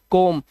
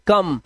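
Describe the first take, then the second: First: कोम said with a long o, like "kome"; कोम with the o stretched, the wrong way; wrong spelling-based reading. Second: कम said short, with the vowel of "cup"; कम with a quick short a sound; correct reading. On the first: Teacher shows the wrong reading कोम with a long o. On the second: Teacher gives the right reading कम with a short vowel. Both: Shown as a demonstration. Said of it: "इसे कोम नहीं पढ़ते".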